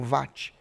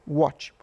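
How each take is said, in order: First: "watt" said with an initial V sound; variant pronunciation. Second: Said in the usual way. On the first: Shown as a demonstration. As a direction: say "watt" as "vatt", starting with V. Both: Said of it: "Alguns falam watt".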